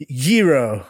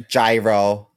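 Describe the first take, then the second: First: Gyro with an opening Y, "YEE-roh"; gyro begun with a Y glide; Greek-style pronunciation. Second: Gyro anglicized to rhyme with biro; American pronunciation. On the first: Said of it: "No, he probably says gyro". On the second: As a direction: say gyro as "jai-roh". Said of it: "He probably says gyro". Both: Retold or imitated.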